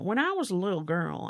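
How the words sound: It is said in a put-on accent.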